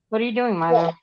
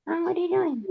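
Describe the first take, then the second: First: Said in the usual way. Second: High, soft pet-talk voice; high hushed baby talk; cat baby talk. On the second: Pretend.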